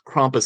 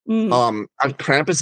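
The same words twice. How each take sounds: First: The word is given an Austrian German pronunciation. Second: The word is given an English-style pronunciation. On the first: "I think, is the correct pronunciation" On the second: "Krampus is sort of the Anglicization"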